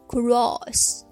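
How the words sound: The vowel has tight, rounded, pushed-out lips. "音音当中发音时唇形要紧绷成圆形，并向前突出。"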